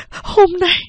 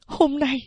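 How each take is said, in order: First: "hôm nay" much higher and louder, breaking out; louder, higher repeat of "hôm nay"; rising outburst. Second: Mother's voice. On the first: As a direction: burst out on the second "hôm nay". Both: A narrator's reading. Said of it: "Mẹ nói tiếp".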